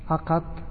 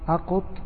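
First: The q is followed by an a vowel. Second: The q is followed by a u vowel. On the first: "وفتحة" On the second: "وضمة"

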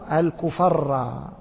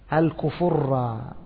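First: The vowel after the f is a. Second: The vowel after the f is u. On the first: "وبالفتح" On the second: "شكلوا الفاء بالضم"

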